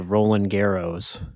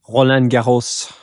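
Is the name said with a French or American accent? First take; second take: American; French. First: The name is said with an American accent. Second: The name is said with a French accent. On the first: The speaker calls it wrong. "it feels ridiculous to me to pronounce a word that I know how to pronounce with a, like, my accent" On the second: The speaker calls it right. "I know how to pronounce"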